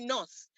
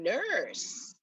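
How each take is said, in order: First: The word is said in a Nigerian accent. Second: The word is said in an Irish accent. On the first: "you know the way we say nurse in Nigeria" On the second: "no, you mean nurse"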